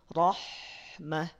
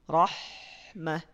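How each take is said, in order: The two takes are said the same way.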